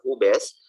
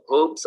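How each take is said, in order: First: Hobbes said "HOO-bess", slow and louder; Hobbes with a second syllable, "bess"; Hobbes as two syllables. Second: Hobbes said "hohbs", slow and louder; Hobbes as a single stretched syllable; Hobbes as one syllable. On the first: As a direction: sound the e in Hobbes, drawn out. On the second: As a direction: say Hobbes with a silent e, drawn out. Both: Shown as a demonstration. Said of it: "pronunciation yan".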